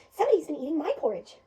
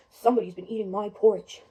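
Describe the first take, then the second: First: Loud, lilting mother bear voice, pitched up; Mama Bear. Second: Low, loud, big bear voice; Papa Bear. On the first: Mother bear finding her porridge eaten, loud and indignant. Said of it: "Mama Bear comes over and says". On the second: Father bear finding his porridge eaten, deep and loud. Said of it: "Papa Bear walks over and he says". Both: Acted.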